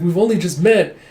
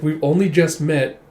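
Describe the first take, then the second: First: Second take higher and louder, pressing "met"; emphatic repeat. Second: Said in the usual way. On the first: Retold or imitated. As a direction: insist on it the second time. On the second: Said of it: "It's like, "We've only just met".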